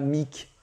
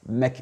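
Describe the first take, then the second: First: The vowel is a full, clear i sound. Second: The vowel is a short, reduced schwa sound. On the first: The speaker calls it wrong. "on ne dit pas mic" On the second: The speaker calls it right. "Ici, on a un choix sound"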